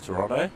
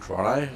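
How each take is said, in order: First: The name is given its ordinary, standard pronunciation. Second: The name is given the locals' own pronunciation.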